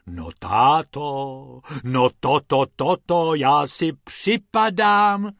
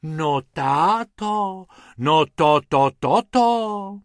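First: Slow, loud astonished wife; amazed exclamation. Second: Slow, high amazed wife; drawn-out astonished sighs; sighing in awe. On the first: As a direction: marvel out loud, drawn out. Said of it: "zvolala paní Pumpernaglová". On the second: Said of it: "v jednom kuse vzdychala". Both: Acted.

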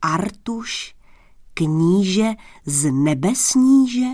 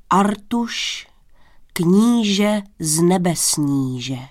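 First: Slow, disbelieving question; king's drawn-out disbelief, ending as a question; incredulous. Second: Put-on solemn old servant announcing a guest, slowly drawn out; grave, dignified. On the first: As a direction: repeat the title slowly as if doubting it. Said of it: "zeptal se nevěřícně král". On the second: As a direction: announce the title with slow, stately dignity. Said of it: "jeho starý hlas zněl vážně, důstojně". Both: A narrator's reading.

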